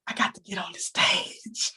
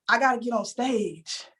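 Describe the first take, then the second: First: Soft whisper, almost to herself; whispered dream. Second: Said in the usual way. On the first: Retold or imitated. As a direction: breathe it like a secret wish. Whispering her secret dream.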